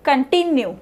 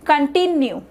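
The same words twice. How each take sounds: The two takes are said the same way.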